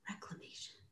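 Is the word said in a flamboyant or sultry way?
sultry. It is said in a low, sultry voice.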